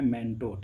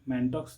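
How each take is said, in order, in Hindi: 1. शब्द का अंत 'o' ध्वनि से होता है। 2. शब्द का अंत 'ks' ध्वनि से होता है। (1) "इसको प्रोनाउंस किया जाता है मैंटो" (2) "ऐसे पढ़ेंगे"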